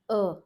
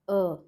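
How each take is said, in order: Both takes have the same delivery.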